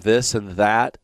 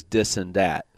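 First: "this and that" with clear th sounds, slowly; standard th. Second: "dis and dat" with hard d for th, slowly; Chicago Mafia dis and dat. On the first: Host shows New York Mafia pronunciation, clear th. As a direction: say "this and that" with proper th, unhurried. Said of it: "pronounces the word this and that". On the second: Host demonstrates Chicago Mafia speech, th as d. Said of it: "the Chicago Mafia uses dis and dat". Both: Shown as a demonstration.

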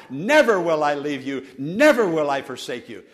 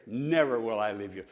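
First: Scripture shouted out loud; loud quote. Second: Soft quote. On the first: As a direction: declare it loudly. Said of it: "verbally, loudly". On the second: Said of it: "so comforting to me". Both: Shown as a demonstration.

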